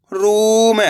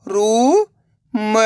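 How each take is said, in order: First: रूम joined, long ऊ; blended word. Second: रू, long pause, म; रूम split slowly, rising first syllable. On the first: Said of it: "तो मिलके बन जाएगा". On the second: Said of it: "एक अक्षर का उच्चारण करना है". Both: Shown as a demonstration.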